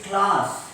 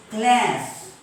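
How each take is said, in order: First: CLASS with long open "ah"; British class. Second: CLASS with front "a" as in cat; American class. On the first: Teacher modelling British English, CLASS with broad "ah". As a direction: say CLASS as "klaas". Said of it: "In British English". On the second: Teacher contrasting for students, CLASS with American cat vowel. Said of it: "In American English". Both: Shown as a demonstration.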